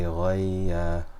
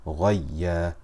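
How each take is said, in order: First: The vowel is drawn out long. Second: The doubled letter gets slight extra stress. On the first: The speaker calls it wrong. "We will not say ghayya because we have slipped into mad" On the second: The speaker calls it right. "We raise our voice ever so slightly in order to show that there are two letters"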